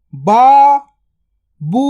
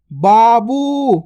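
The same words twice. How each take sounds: First: Babu drawn out very slowly; slow stretched word. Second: Said in the usual way. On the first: Shown as a demonstration. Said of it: "stretched drill take". (बाबू को धीरे खींचकर बोलें) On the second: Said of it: "normal take".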